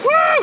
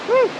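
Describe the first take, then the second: First: The woo is shouted loudly. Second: The woo is said quietly.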